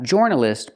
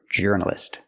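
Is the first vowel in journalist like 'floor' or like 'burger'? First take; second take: floor; burger. First: The first vowel sounds like the vowel in floor. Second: The first vowel sounds like the vowel in burger. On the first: The speaker calls it wrong. "It's not or journalist, like Floor and Moore" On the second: The speaker calls it right. "We use the er sound like burger"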